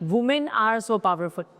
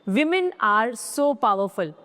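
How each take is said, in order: First: The word 'women' begins with a 'woo' sound. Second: The word 'women' begins with a 'wi' sound. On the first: The speaker calls it wrong. "ना कि" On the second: The speaker calls it right. "एक से ज्यादा औरतें विमेन"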